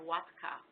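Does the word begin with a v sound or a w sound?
w sound. The word begins with a w sound. "in Poland they say"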